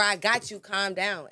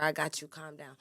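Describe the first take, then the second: First: Raised, insistent voice; forceful delivery. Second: Calm delivery. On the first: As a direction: push the reassurance out hard, like an order. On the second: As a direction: reassure your partner in an even, unforced voice. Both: Shown as a demonstration. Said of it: "It's all about your delivery".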